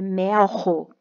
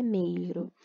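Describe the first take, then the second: First: Slow "melro" with open E, W-like L, strong R; corrected word. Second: Softer "meiro" with EI and a tapped R; misread word. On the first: Teacher fixing her misreading, slow "melro" with a strong H-like R. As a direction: draw out "melro" as MEU-ho, the E open. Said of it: "É melro". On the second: Teacher rejecting her misreading, softer "meiro" with a tapped R. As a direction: say "meiro" lightly, R as a quick tap. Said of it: "não é meiro". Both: Shown as a demonstration.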